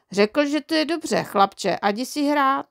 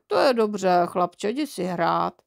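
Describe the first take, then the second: First: Put-on higher-pitched chirpy child voice; cheerful little boy. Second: Absent-minded father. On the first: Boy happily reporting dad's answer to mum, chirpy. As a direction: relay it brightly and innocently. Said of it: "Ve výborné náladě jsem se vrátil". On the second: Father reading his paper dismisses son, absent-minded. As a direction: wave the boy off without really listening. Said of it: "tatínek a dál četl noviny". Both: A narrator's reading.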